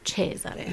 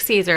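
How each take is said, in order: First: The name is said with an Italian lilt. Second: The name is said as plain English Caesar. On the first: The speaker calls it right. "a little Italian lilt to it" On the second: The speaker calls it wrong. "You want to be like Caesar"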